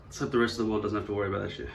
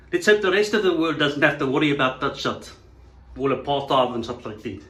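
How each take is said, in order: First: Said in the usual way. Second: Put-on louder, thick South African accent. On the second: South African dismissing worries about race, put-on South African accent. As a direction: repeat it as a broad South African.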